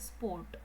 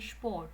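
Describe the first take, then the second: First: The word begins with a plain s sound. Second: The word begins with an sh sound. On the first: The speaker calls it wrong. "We do not say sport" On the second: The speaker calls it right. "we say sport ... so it becomes sh"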